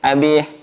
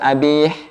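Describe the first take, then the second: No difference in how they are said.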